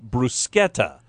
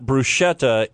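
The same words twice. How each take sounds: First: It is the intended pronunciation of the word. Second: It is the commonly used pronunciation of the word. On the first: This is how the word is meant to be said. The speaker calls it right. "it's supposed to be bruschetta" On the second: This is how most people say it. The speaker calls it wrong. "It's not bruschetta"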